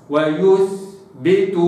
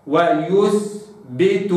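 First: ويثبت very slow with a crisp still ث; slow recitation. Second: ويثبت drawn out, damma then still ث; slow recitation. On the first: Teacher repeating the word. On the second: Teacher reciting the example. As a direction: stretch ويثبت clearly. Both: Shown as a demonstration. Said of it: "كده".

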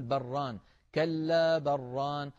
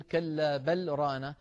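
First: بران said as one word, the lam swallowed into the ra; merged lam demo. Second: كلا بل ران slow, with a stop after بل; slow recited demo. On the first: Teacher showing the merged reading, slow. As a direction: recite كلا بران, assimilating the lam, no stop. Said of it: "فنقول". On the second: Teacher demonstrating the sakt before ران, slow. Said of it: "الموضع الرابع والأخير". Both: Shown as a demonstration.

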